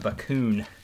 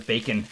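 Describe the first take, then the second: First: The second vowel sounds like 'oo'. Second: The name sounds like the word 'bacon'.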